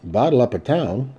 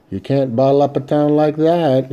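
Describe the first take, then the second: First: Mild mock astonishment echoing the words; a hint of wide-eyed surprise; astonished. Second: A touch of indignant protest; lightly voiced lawman objecting. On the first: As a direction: feign innocent surprise, understated. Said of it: "My voice indicated astonishment". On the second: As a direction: push back, mildly insistent. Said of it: "he protested". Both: A narrator's reading.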